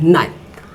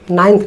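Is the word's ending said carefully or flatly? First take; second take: carefully; flatly. First: The ending is shaped carefully with the mouth. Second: The ending is said flatly, without care. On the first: The speaker calls it right. "ये बोलने का है" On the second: The speaker calls it wrong. "नाइन्थ नहीं, ऐसे नहीं बोलना आपको"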